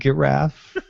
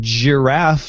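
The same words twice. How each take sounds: First: The word begins with a hard g sound. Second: The word begins with a soft j sound. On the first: The speaker calls it wrong. "not giraffe" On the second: The speaker calls it right. "I say giraffe"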